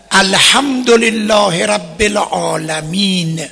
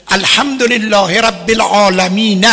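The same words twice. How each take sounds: First: العالمین ending on a still, vowelless نون, slow; stopping with sukun. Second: العالمین cut off but still keeping its final vowel, a wrong stop; stopping on a vowel. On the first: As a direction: recite الحمدلله رب العالمین and stop dead on the نون of العالمین. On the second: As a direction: stop on العالمین yet sound the vowel on the نون. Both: Shown as a demonstration.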